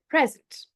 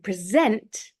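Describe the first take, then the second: First: The stress is on the first syllable. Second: The stress is on the last syllable. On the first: It is a noun meaning a gift. "the gift, the noun" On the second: It is a verb meaning to show or give something. "so the stress is at the end"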